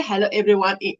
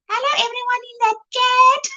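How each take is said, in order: First: Said in the usual way. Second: High, put-on voice in a teasing mimic; playfully mimicking a chat friend; teasing imitation. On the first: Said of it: "She doesn't speak like that". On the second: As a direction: mimic a friend's greeting, higher and in fun. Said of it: "She doesn't speak like that, but I like to tease her".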